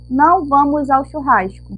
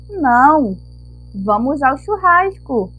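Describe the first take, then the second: First: It runs on with no pause after não. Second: There is a pause after não.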